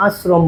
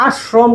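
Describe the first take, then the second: First: আশ্রম lower and softer with a thin "s"; correct light s. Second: আশ্রম with thick, held "sh", "ash-shrom"; the rejected heavy sh in আশ্রম; wrong heavy sh. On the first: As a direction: settle on a light dental s in আশ্রম. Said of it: "আশ্রম বলি". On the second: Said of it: "আশ্রম কখনো আমরা বলি না". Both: Shown as a demonstration.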